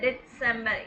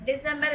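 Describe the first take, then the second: First: The middle consonant is a ts sound. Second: The middle consonant is a plain s sound. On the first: The speaker calls it right. "இட்டு சவுண்ட் வரும் நடுவுல செட்டுக்கு" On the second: The speaker calls it wrong. "இல்ல"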